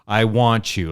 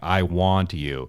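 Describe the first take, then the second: First: The t and y merge into a ch sound. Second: The t and y stay separate, no ch. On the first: The speaker calls it wrong. "like ch, that sound" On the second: The speaker calls it right. "enunciating it by saying"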